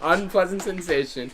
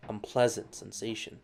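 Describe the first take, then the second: First: Mock dramatic. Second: Quiet. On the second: Acted.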